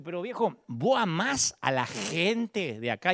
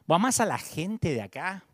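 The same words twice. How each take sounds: First: Slow, drawn-out question leaning hard on "gente"; stressing gente. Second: Said in the usual way. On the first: Retold or imitated. Pastor asking a visiting leader again, slow with "gente" stressed. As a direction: press the word "gente" slowly, as if it were the whole point. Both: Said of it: "Y acentué la palabra gente".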